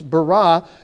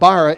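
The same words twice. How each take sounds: First: The stress is on the last syllable. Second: The stress is on the first syllable. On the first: The speaker calls it right. "the emphasis always goes on the final syllable of a word" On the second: The speaker calls it wrong. "So it's not bara"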